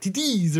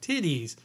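First: It is said sharp and quick, French robotic accent. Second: It is said with a plain English accent. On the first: "gnarly digital robot French accent thing. ... sharper and, like, quicker" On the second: "it's the English pronunciation"

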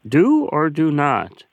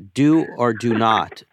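First: It is said in a Yoda impression. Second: It is said in his normal voice.

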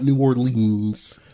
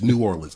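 First: The last syllable ends with a long 'eens' sound. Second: The last syllable ends with a short 'ins' sound. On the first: The speaker has never been there or is not from there. The speaker calls it wrong. "It's not a eens kind of thing to me" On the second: The speaker knows the city. The speaker calls it right. "that's how you're supposed to pronounce that city"

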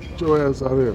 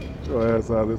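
First: It sounds aggressive and disrespectful. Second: It sounds playful and flirtatious.

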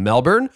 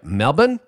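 First: It is said with a North American pronunciation. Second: It is said with an Australian pronunciation. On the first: The speaker calls it wrong. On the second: The speaker calls it right.

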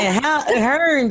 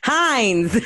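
First: The name is said like 'Hearns', with an r. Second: The name is said like 'Heinz', without an r. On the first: The speaker calls it wrong. "I said Hearns. Like I'm from fucking Baltimore" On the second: The speaker calls it right. "How you say it?"

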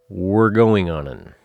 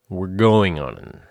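Both takes have the same delivery.

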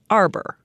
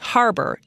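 First: The word begins without an h sound. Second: The word begins with an h sound.

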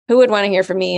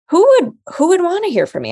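First: The question sounds negative and doubtful. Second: The question sounds curious and open. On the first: Nobody would want to listen. The speaker calls it wrong. "in the negative voice" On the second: It is a real question worth exploring. The speaker calls it right. "I'm curious about that. Let's find out"

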